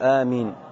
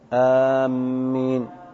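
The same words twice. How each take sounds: First: The first vowel is short and the m single. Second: The m is doubled in the middle of the word. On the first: The speaker calls it right. "تخفيف الهمزة وتخفيف الميم" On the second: The speaker calls it wrong. "إذا شددت فهذا تحريف"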